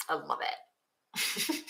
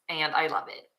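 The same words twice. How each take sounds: First: Slow, soft breathy whisper of delight; hushed, dreamy repeat. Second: Said in the usual way. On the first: Real, not acted. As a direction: breathe it out slowly, almost to herself.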